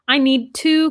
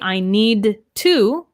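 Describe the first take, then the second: First: Need and two are linked into one flow. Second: Need and two are said separately, not linked. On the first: The speaker calls it right. "I'm really pronouncing that T and linking these sounds" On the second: The speaker calls it wrong. "So I would not say"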